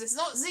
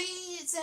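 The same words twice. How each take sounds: First: American zee for Z; "Z" as zee, the American letter name. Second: British zed for Z; "Z" as zed, the British letter name. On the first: British speaker saying Z the American way. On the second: Speaker correcting herself to the British letter name. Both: Shown as a demonstration.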